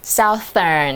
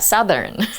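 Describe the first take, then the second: First: The first vowel sounds like the vowel in south. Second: The first vowel is short, like the vowel in sun. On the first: The speaker calls it wrong. "不是 southern" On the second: The speaker calls it right. "要 southern"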